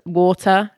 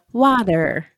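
First: Said in the usual way. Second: American accent. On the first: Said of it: "water as a English accent". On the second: Shown as a demonstration. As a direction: put on an American drive-thru "water". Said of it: "you have to do the water".

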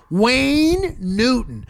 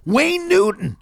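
First: Slow, drawn-out name; slow, savouring repeat. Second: High, announced reveal; quick high announcement; big reveal. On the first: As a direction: stretch the name out for effect. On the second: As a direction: unveil the name like a punchline. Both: Real, not acted.

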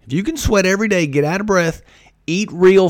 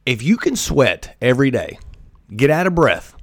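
First: Quicker and higher, driving it home; faster emphatic repeat. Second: Said in the usual way. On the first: Shown as a demonstration. Urging listeners to sweat daily, fast and higher. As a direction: fire the repeat off fast and high. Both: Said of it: "repeats the line".

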